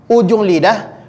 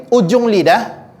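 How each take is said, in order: No difference in how they are said.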